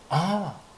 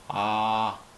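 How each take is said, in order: First: It is a short exclamation of sudden realization. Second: It is a plain sound made with mouth wide open. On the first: Something has just come to mind. "뭔가 순간적인 생각이 날 때" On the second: The mouth is being opened wide. "입 크게 벌릴 때"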